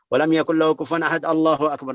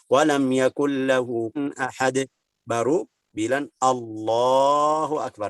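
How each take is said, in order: First: It runs on without a pause before Allahu akbar. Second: There is a clear pause before Allahu akbar.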